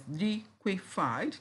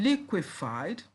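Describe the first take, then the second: First: "liquefied" slowly in three beats, end rising; syllable by syllable. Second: Said in the usual way. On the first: Shown as a demonstration. Teacher listing three syllables, syllable by syllable. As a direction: gaps between each syllable of "liquefied". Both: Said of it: "we have three syllables there".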